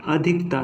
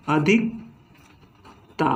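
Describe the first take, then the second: First: Said in the usual way. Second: अधिकता said very slowly, अधिक then ता; teacher splitting अधिकता into root and suffix; slow split word. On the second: Shown as a demonstration. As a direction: pull अधिकता apart sound by sound. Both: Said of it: "अधिक अलग हो गया".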